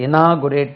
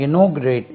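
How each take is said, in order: First: Inaugurate with an open, drawn NAA; i-NAA-gu-rate for inaugurate; mispronunciation demo. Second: Inaugurate with a rounded NAW, stressed; in-NAW-gyu-rate for inaugurate; correct pronunciation. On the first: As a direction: show the faulty AA vowel in inaugurate. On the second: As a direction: lean on the second syllable of inaugurate. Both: Shown as a demonstration. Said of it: "inaugurate சொல்லக்கூடாது".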